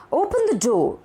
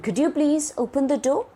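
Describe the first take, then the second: First: High start on "Open", falling to "door"; command. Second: Higher-pitched question, rising on "door"; request. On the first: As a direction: give it as an order, pitch dropping. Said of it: "is a command". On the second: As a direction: ask it as a request, lifting "door". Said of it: "It is put forth as a request". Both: Shown as a demonstration.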